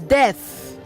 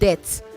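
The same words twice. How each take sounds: First: The word death is pronounced carefully. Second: The word death is pronounced carelessly. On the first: The speaker calls it right. "I would start by saying that it is death" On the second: The speaker calls it wrong. "not death"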